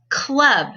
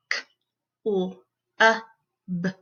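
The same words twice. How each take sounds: First: Said in the usual way. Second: CLUB split into four sounds; k... l... uh... b, each alone; sounded out phonemes. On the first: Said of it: "breaking down those words". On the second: Shown as a demonstration. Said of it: "breaking down those words into their sounds".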